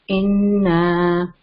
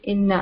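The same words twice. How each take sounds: First: The vowel is stretched for two counts. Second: The vowel is said quickly without stretching. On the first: The speaker calls it right. "We we are supposed to stretch it two counts" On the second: The speaker calls it wrong. "They read it very quickly. ... so they did not stretch inna"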